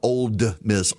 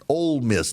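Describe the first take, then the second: First: The first word ends with a d sound. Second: The first word ends without a d sound. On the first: The speaker calls it wrong. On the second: The speaker calls it right.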